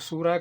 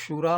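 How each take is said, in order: First: The word begins with an s sound. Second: The word begins with an sh sound. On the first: This is how people commonly say it. "ਇਹਦਾ ਉਚਾਰਨ ਲੋਕ ਸੂਰਾ ਕਰਦੇ ਆ" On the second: This is the original form of the word. "ਅਸਲ ਵਿੱਚ ਸ਼ੂਰਾ ਹੁੰਦਾ ਆ"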